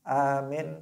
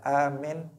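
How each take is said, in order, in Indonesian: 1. Vokalnya diucapkan pendek. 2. Vokalnya diucapkan pendek.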